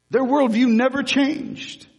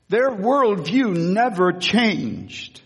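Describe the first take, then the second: First: Much higher, ringing worldview; higher emphatic repeat. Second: Slow, deliberate, weight on worldview; slow emphasis. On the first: Preacher repeating the point, higher and ringing. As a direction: lift it up and proclaim. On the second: Preacher to congregation, slow and deliberate. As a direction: let worldview land slowly. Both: Shown as a demonstration. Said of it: "repeated for emphasis".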